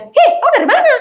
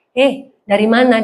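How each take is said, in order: First: Put-on sharp, much higher Eastern Indonesian accent, half laughing; loud high island accent. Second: Said in the usual way. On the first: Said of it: "naik berapa oktav". (logat Timur yang tinggi dan keras) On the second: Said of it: "Kalau kita kan".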